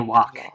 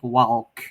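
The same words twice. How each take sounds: First: The L sound is silent. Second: The L sound is clearly pronounced. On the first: "They say walk" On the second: "go out of their way to pronounce the L like walk"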